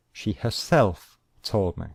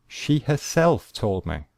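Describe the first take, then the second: First: Said in the usual way. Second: "herself" lifted high and emphasised; stress on herself. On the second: Shown as a demonstration. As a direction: hit the word "herself" harder. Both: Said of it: "the word herself is emphasizing she".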